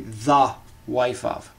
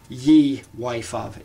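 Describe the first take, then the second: First: The first word starts with a th sound. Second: The first word starts with a y sound. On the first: The speaker calls it right. "It is actually the wife of" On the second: The speaker calls it wrong. "this is not ye wife of"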